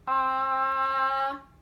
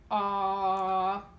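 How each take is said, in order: First: The vowel is held at a medium pitch. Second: The vowel is held at a low pitch. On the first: "So medium" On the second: "So go a low pitch"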